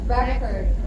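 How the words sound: It is said with an American pronunciation. "And the American English is pronounced as record"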